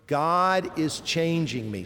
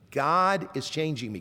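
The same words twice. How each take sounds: First: Slow, each word set apart; leading recitation. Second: Said in the usual way. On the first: Shown as a demonstration. Preacher asks congregation to say four words, slow recitation. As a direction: say it slowly for a group to repeat. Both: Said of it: "Can you say those four words?".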